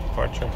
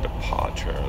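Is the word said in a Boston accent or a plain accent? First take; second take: plain; Boston. First: It is said in a plain accent. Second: It is said in a Boston accent.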